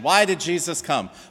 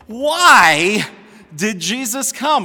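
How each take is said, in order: First: The question is asked in a flat, bland way. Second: The question is asked with theatrical, incredulous intonation.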